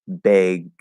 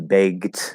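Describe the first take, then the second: First: The word ends with a voiced d sound. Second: The word ends with a voiceless t sound. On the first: The speaker calls it right. "G is voiced. So G, D, begged" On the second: The speaker calls it wrong. "It's not going to be begged. There's no reason to change it to a T"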